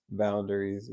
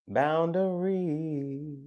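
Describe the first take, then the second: First: Said in the usual way. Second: "Boundaries" stretched long and higher; drawn-out. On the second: Real, not acted. Reader dwells on boundaries, very drawn-out. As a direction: hold the last syllable of "Boundaries" long.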